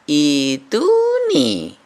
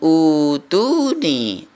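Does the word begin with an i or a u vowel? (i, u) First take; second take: i; u. First: The word begins with an i vowel. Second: The word begins with a u vowel. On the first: The speaker calls it right. "malah dibaca ituni" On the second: The speaker calls it wrong. "bukan utuni"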